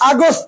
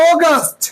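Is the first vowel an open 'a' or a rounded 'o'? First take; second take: open 'a'; rounded 'o'. First: The first vowel is an open 'a' sound. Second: The first vowel is a rounded 'o' sound. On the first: The speaker calls it wrong. "আগস্ট না" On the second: The speaker calls it right. "বলো অগাস্ট"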